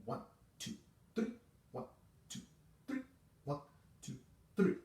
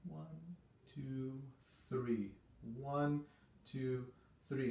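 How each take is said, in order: First: Whispered, clipped beat count; short detached counts under the breath; breathy staccato one two three. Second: Soft, sweet beat count; tender legato one two three. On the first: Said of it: "which is short and disconnected". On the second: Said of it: "sort of sweet feeling three beat pattern". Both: Shown as a demonstration.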